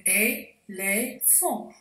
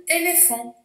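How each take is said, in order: First: "éléphant" slowly, broken as é - lé - phant; split into syllables. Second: Said in the usual way. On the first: Shown as a demonstration. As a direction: say "éléphant" syllable by syllable, with clear gaps. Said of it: "On coupe le mot en syllabes". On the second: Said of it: "On coupe le mot".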